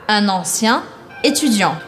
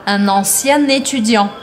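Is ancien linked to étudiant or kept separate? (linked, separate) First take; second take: separate; linked. First: Ancien and étudiant are said without a liaison. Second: Ancien is linked to étudiant with a liaison.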